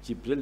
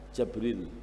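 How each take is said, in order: First: The first vowel is i. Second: The first vowel is a. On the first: "Jibril dibaca Jabril" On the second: "dibaca Jabril"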